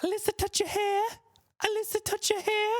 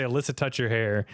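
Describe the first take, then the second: First: Put-on very high, soft childlike squeak; imitating Alyssa. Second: Said in the usual way. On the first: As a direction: mimic the girl in a tiny high voice. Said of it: "and she'd go". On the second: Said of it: "She would just go around and say".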